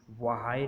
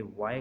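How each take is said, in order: First: व्हाई in two syllables, va-HAI; व्हाई as the mistaken reading with audible H; H wrongly sounded. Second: वाई as one syllable with no H; वाई with the H left out; silent H. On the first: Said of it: "व्हाई नहीं कहेंगे". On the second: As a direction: say वाई starting on a clean W. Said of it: "बल्कि वाई कहेंगे". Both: Shown as a demonstration.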